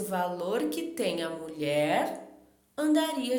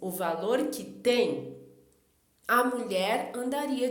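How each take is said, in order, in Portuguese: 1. Há uma pausa logo depois de 'mulher'. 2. Há uma pausa logo depois de 'tem'. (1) "colocou a vírgula depois de mulher" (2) "colocou a vírgula depois de tem"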